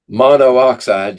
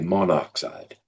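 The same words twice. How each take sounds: First: Two O vowels are said one after another. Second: Only one O vowel is said, merged together. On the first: The speaker calls it wrong. "just doesn't sound right" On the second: The speaker calls it right. "we drop one of the O's"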